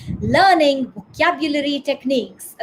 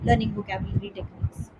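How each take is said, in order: First: "learning VOCABULARY techniques", slow, with the pitch moving on "vocabulary"; stress on VOCABULARY. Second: "learning vocabulary techniques" read low and soft on one tone; monotone. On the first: Teacher shows students the main word, stress on "vocabulary". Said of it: "मैंने vocabulary word पे focus किया". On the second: Teacher shows students a dull reading, monotone "learning vocabulary techniques". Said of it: "it's just a monotone". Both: Shown as a demonstration.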